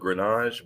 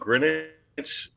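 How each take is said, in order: First: The name has a French-style pronunciation. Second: The name has a plain English pronunciation. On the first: This is the pronunciation he chose for himself. "I chose the French pronunciation" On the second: This is how the family said it growing up. "I grew up Greenwich"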